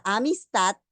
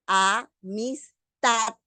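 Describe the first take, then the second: First: Said in the usual way. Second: "amistad" drawn out slowly, a-mis-TAD, weight on the last syllable; teacher slowly sounding out "amistad" in separate syllables, final one strongest; syllable-by-syllable stress demo. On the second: Shown as a demonstration. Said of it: "la mayor fuerza de voz está en la última sílaba".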